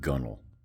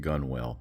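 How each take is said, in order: First: The second syllable is a short 'nel'. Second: The second syllable sounds like 'whale'. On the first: The speaker calls it right. "but it's pronounced gunnel" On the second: The speaker calls it wrong. "Some people will actually pronounce it gunwale"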